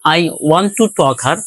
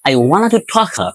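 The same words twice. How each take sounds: First: It is spoken with a Bengali-style accent. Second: It is spoken with a native-like English accent. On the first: The speaker calls it wrong. "প্রথম যেটি আমরা করলাম এটি অ্যাকচুয়ালি আমাদের ভোকাল কর্ড, অর্থাৎ আমরা এই সিস্টেমে উচ্চারণ করে থাকি।" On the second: The speaker calls it right. "আরেকভাবে দেখো"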